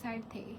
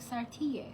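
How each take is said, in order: First: The name is said in a plain, unaccented way. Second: The name is said with an Italian-style accent.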